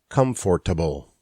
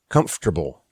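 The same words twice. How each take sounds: First: Every written syllable is pronounced in the word. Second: One written syllable is dropped from the word. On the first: The speaker calls it wrong. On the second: The speaker calls it right. "more syllables written than there are pronounced"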